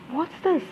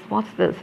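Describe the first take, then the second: First: High, hushed shock; sudden fright at the bodies; startled gasp. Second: Said in the usual way. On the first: Acted.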